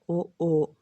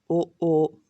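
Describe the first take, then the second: No difference in how they are said.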